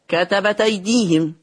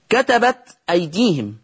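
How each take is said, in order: First: كتبت أيديهم linked as "katabataydihim"; hamza dropped. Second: Said in the usual way. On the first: Shown as a demonstration. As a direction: drop the hamza of أيديهم, give its vowel to the ت. (كتبت أيديهم بنقل حركة الهمزة) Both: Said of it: "قرأ ورش بالنقل".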